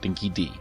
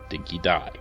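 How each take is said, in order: First: The last word is said like "dee". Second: The last word is said like "die". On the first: The speaker calls it wrong. "not Dinky D" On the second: The speaker calls it right. "it's pronounced Dinky Die"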